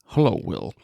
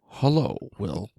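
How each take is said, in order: First: It is said at a quicker pace. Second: It is said at a slower pace.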